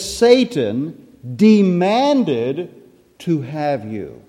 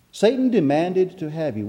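First: Scripture drawn out slowly, pause before the last words; very slow, deliberate verse reading; slow emphatic quote. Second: Said in the usual way. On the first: Acted. Reads verse with emphasis, then restates.

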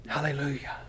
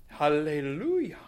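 First: "Hallelujah" breathed out, unvoiced and soft; whispered hallelujah. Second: Southern hallelujah. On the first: After failing the accent, whispered hallelujah. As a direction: give up and just whisper "Hallelujah". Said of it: "I can't do it". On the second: Preacher tries a regal Southern accent hallelujah. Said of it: "that's a very regal accent, Southern accent". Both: Shown as a demonstration.

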